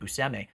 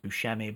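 First: The middle consonant is an 's' sound. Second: The middle consonant is a 'sh' sound. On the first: This is how the name's owner says it. The speaker calls it right. "apparently he pronounces it" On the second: This is the common pronunciation. The speaker calls it wrong. "I also thought his name was pronounced"

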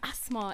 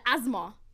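First: The middle consonant is a soft S sound. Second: The middle consonant is a buzzing Z sound. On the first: It is the speaker's name. The speaker calls it right. "It's soft, the S" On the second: It refers to the illness. The speaker calls it wrong. "They usually just make that S a Z"

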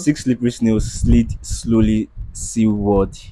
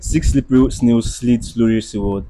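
First: It is said at a normal speed. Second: It is said fast.

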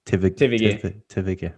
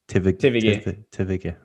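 First: The letters are named with German letter sounds. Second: The same.

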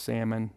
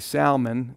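First: The L sound is left silent. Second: The L sound is clearly pronounced. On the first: The speaker calls it wrong. "It's not pronounced Salmon" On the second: The speaker calls it right. "which that is how you pronounce it. You actually pronounce it with the L"

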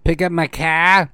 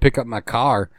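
First: The R in car is dropped. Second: The R in car is pronounced.

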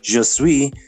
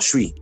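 First: Both words are pronounced fully and separately. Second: The two words are squeezed into one short syllable. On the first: This is the textbook form. "even je suis, which means I am" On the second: This is how people say it now. "is now je suis"

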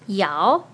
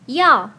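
First: The syllable is said with the second tone. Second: The syllable is said with the fourth tone. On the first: "the second tone" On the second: "the fourth tone"

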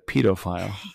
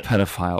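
First: The word is said in a British pronunciation. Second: The word is said in a non-British pronunciation.

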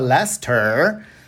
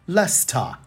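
First: It is said with an American accent. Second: It is said with a British accent.

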